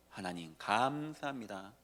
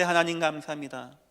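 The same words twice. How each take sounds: First: Soft, slow whispered-down thanks; quiet thanks. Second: Said in the usual way. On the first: Retold or imitated. Preacher voicing a believer's prayer that satan fears, quiet and slow. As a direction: murmur it as a humble prayer. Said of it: "사단이 가장 두려워하는 거". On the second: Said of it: "분명히 홍해 앞에 갔는데".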